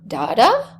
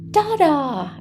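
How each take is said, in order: First: It is said with a rising, question-like tune. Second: It is said with a falling, statement-like tune. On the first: The child is asking where the person is. "that might suggest that they're asking, where is da-da" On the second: The child is pointing out that the person is there. "that means, oh, there's my da-da"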